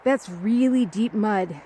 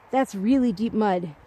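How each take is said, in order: Both takes have the same delivery.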